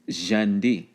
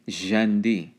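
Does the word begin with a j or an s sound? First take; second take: j; j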